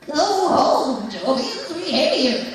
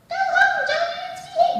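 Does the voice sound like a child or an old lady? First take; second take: old lady; child. First: It is said in an old lady's voice. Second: It is said in a child's voice.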